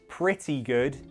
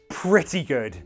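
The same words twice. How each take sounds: First: It is said hesitantly, sounding unsure. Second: The word pretty is strongly emphasized. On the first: It was good but not great. "if you say it like you're not really sure" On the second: It was very good. "If you emphasize the word pretty"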